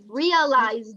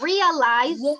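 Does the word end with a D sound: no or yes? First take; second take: yes; no. First: The word ends with a clear final D sound. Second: The word ends without a final D sound. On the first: The speaker calls it right. "The D sound you have to make it" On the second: The speaker calls it wrong. "If you say just realize, it's incorrect"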